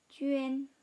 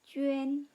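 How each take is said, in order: Both takes have the same delivery.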